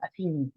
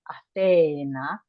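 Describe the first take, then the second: First: The second vowel sounds like 'ee'. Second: The second vowel sounds like 'ay'. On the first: This is how it is said today. "in modern Greek ... so with an I" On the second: This is how it was said in ancient times. "in ancient Greek, we would say"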